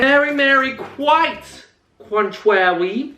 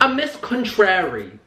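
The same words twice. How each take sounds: First: Mary Mary and contrary without R; contrary said slow, R sounds dropped. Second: Said in the usual way. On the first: Real, not acted. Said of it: "was unable to say any R's". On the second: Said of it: "That's not a saying".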